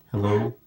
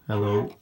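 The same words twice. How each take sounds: The two takes are said the same way.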